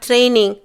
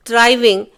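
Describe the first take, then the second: First: ட்ரைனிங் said properly as training, n in the middle; the son's correct ட்ரைனிங், clearly training not driving; ட்ரைனிங் spoken as the right English word. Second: டிரைவிங் said as driving instead of training; the mother's mistaken டிரைவிங், with a v sound; டிரைவிங் proudly but wrongly, driving not training; wrong word. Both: Shown as a demonstration. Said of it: "டிரைவிங் இல்லையேம்மா".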